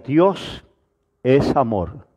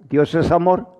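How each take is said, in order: First: There is a pause after the first word. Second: It is said straight through without a pause. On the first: "con pausa sería" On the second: "sin respiración, sin pausa"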